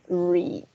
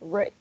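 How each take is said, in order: First: It has a long ee vowel. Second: It has a short e vowel. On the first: It is the present form. "Pero si es presente, read, con una I" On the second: It is the past form. "en el pasado va a sonar red, como el color rojo"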